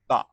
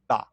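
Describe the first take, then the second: First: The vowel is short and clipped. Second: The same.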